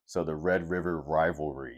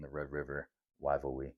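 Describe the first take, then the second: First: "rivalry" said carefully with clear r sounds; careful pronunciation. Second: "rivalry" slurred as "waivalwee", r sounds turned to w. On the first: Shown as a demonstration. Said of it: "subconsciously think about it". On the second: Real, not acted. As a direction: let "rivalry" come out as "waivalwee". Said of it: "when I don't enunciate things correctly".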